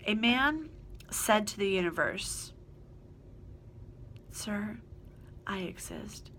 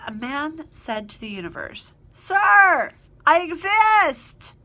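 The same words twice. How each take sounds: First: It is said flatly, without exclamatory force. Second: It is said forcefully, like an exclamation.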